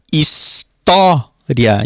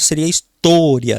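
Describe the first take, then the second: First: História with a slow, open stressed O; open O demo. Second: História with a closed stressed O, like tô; closed O demo. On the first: Teacher showing students the open vowel, slowly. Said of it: "o falar é aberto". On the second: Teacher contrasting the closed vowel for students. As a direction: say história with the O shut, istôria. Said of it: "Se fosse fechado". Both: Shown as a demonstration.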